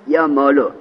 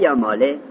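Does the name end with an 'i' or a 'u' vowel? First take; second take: u; i. First: The name ends with a short 'u' vowel. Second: The name ends with a short 'i' vowel. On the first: The deleted letter is treated as if it never existed. "از زمه یا مالو" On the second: The deleted letter is treated as still implied. "و الحرکت الاصلیه یا ماله"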